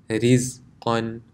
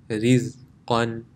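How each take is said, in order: Both takes have the same delivery.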